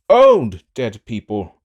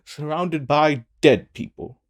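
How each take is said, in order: First: Put-on Old hit louder and slow, falling; stress on Old. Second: Said in the usual way. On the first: Rambling alone in a throne room, stress on Old. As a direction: lean on Old, drag the phrase.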